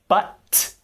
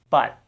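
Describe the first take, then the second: First: The final T is released with a burst. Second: The final T is held without release. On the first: The speaker calls it wrong. "we don't say but" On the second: The speaker calls it right. "we say but. The tongue never goes down"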